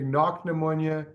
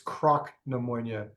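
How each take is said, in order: First: The name begins with a 'kn' sound. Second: The name begins with a 'kr' sound. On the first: This is how it is said in Speyside. "if you're in the space side" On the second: This is how it is said on the Isle of Skye. "if you're in on the Isle of Skye"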